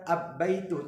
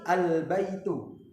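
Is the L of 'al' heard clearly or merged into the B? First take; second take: merged; clear. First: The L merges into a doubled B sound. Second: The L is pronounced clearly before the B. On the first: The speaker calls it wrong. "bukan ab-baitu" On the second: The speaker calls it right. "tapi al-baitu"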